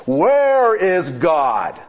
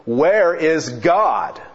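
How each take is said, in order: First: Slow, higher booming demand; hammed-up slow preacher roar; bellowing preacher. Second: Slow, stern repeat of the question; a touch sterner, drawn out; sterner preacher. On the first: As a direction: bellow it down at the boy. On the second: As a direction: press the boy harder, slowly. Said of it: "in an even sterner tone". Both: A narrator's reading.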